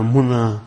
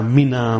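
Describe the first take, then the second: First: "Muna" with a u in the first syllable; dhamma pronunciation. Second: "Mina" with an i in the first syllable; kasra pronunciation. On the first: Lecturer shows variant vowels, "Muna" said with a u. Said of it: "pronounce them with a dhamma". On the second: Lecturer shows variant vowels, "Mina" said with an i. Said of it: "or the kasra". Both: Shown as a demonstration.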